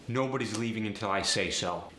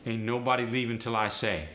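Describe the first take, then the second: First: Said in the usual way. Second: AAVE, Ain't up front. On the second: Shown as a demonstration. Teacher demoing AAVE negative. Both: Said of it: "just throw an ain't onto it".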